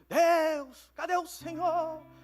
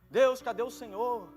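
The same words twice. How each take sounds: First: It is said in a pleading tone. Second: It is said in a plain tone.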